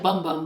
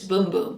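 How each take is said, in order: First: The vowel sounds like 'uh' in both words. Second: The vowel sounds like 'oo' in both words. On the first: The speaker calls it wrong. "It looks like Bum Bum" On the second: The speaker calls it right. "but it's Boom Boom"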